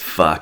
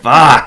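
First: The word is said shyly, with shame. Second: The word is said boldly, without shame.

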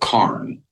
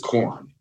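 First: The vowel sounds like the one in 'car'. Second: The vowel sounds like the one in 'corn'. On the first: This is the local slang form meaning cannabis. "but they pronounce it Karn" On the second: This is the standard form of the word. "what they're saying is corn, like corn on the cob"

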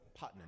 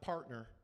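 First: The R sounds are dropped, in a Southern accent. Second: The R sounds are pronounced, in a standard accent. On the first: The speaker calls it right. "Partners is a southern word" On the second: The speaker calls it wrong.

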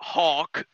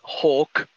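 First: The vowel sounds like the one in 'hawk'. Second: The vowel sounds like the one in 'hulk'. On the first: The speaker calls it wrong. "I said it wrong. It's not Hawk" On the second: The speaker calls it right. "It's Hulk"

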